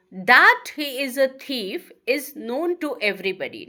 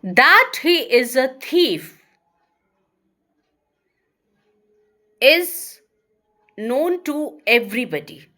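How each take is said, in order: First: Said in the usual way. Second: Slow and louder, long pause before the verb; louder slow dictation. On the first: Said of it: "another example". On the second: Shown as a demonstration. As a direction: dictate the sentence in chunks. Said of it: "another example I'm going to give you".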